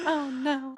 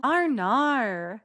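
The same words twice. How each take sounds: First: Said in the usual way. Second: Exaggerated Australian "Arnar" for "oh no"; Australian accent. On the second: Shown as a demonstration. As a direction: ham up a drawn-out Australian accent. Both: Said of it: "That's my Australian accent".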